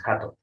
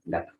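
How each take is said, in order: First: "jato" with a throaty j instead of a g; wrong J sound. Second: "Gato" with a hard g at the start. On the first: Teacher showing the wrong way to say "gato". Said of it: "No es jato". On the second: Teacher contrasting "Gato" with the wrong j sound. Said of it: "se pronuncia como una G". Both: Shown as a demonstration.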